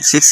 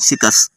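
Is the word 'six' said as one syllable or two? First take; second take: one; two. First: The word is said as one syllable. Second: The word is said with an extra vowel, two syllables. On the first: "सिक्स नहीं" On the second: "मैं सिकस कहता हूँ"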